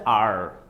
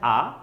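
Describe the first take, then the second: First: The letter is said with an r sound. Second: The letter is said without an r sound.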